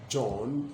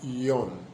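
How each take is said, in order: First: The name begins with a j sound. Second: The name begins with a y sound.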